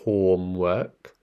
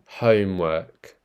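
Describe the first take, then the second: First: It is said with an Indian accent. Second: It is said with a British accent. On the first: "So in the Indian accent, this one would be pronounced in, in the same way" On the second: "if you want to change that to the British accent"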